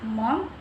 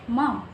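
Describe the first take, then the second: First: The word is said the Canadian way. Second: The word is said a non-Canadian way. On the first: "Canadians often say mom" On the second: "instead of mom"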